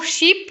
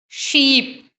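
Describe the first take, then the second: First: शिप with a short, quick i; short vowel. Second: शीप with a long stretched ee; long vowel. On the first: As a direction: keep शिप brief. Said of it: "अब जो पहला वाला शिप है". (शिप में छोटी इ) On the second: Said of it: "second वाले शिप की तरह शीप". (शीप में लंबी ई खींचकर) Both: Shown as a demonstration.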